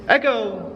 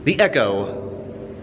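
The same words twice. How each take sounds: First: Called out high to make it echo. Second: Said in the usual way. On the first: Shown as a demonstration. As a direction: call the word out under the bridge to hear it bounce. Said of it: "You can probably hear the echo". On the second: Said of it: "You can probably hear".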